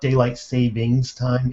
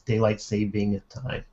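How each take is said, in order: First: An s sound follows the word saving. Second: No s sound follows the word saving. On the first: The speaker calls it wrong. "even I say it wrong" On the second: The speaker calls it right. "I know there's no S in there"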